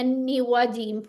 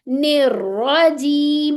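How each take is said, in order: First: The r is weak, without any rolling. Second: The r is heavy and rolled. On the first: The speaker calls it wrong. "वो गलत आवाज है" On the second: The speaker calls it right. "यहाँ रॉ कैसी है, मुफख्खम है"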